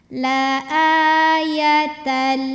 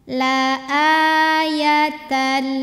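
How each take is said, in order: The two takes are said the same way.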